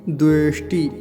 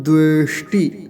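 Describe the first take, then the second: The two takes are said the same way.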